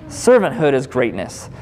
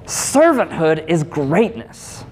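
First: Said in the usual way. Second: "Servanthood is greatness" slow, each word weighted; slow emphatic. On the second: Shown as a demonstration. Preacher drives home his point, slow and emphatic. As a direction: lean into "Servanthood" and draw it out.

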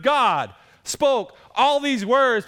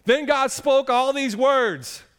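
First: "all" leaned on, the whole phrase slow and loud; stress on ALL. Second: "Then God spoke all these words" read out slowly, word by word; slow scripture reading. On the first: Pastor repeating the verse to make his point, stressing "all". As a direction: hit "all" in "God spoke all these words". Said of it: "Why on earth would he start off". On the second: Pastor reading the verse to his church, slow and deliberate. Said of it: "Here it is". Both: Shown as a demonstration.

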